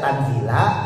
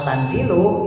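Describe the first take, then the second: First: The word ends with an 'a' vowel. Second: The word ends with an 'u' vowel. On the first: The word is the object of the sentence. "Kalau dibaca Tanzila maka dia statusnya maf'ul, dia dibacanya nasab" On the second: The word is the predicate of the sentence. "Kalau Tanzilu itu dibacanya rofa"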